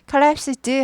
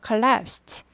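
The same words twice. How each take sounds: First: The ending is a voiced d sound. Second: The ending is a voiceless t sound. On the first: The speaker calls it wrong. "원래는 드지만 ... collapsed 하지 않고" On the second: The speaker calls it right. "무성음이기 때문에 트"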